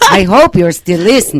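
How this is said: It is said in a Transylvanian-sounding accent.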